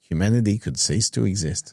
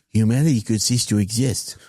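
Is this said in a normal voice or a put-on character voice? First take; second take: normal; put-on. First: It is said in the speaker's normal voice. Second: It is said in a put-on character voice. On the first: "say that again" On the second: "Now say that in a Donny voice"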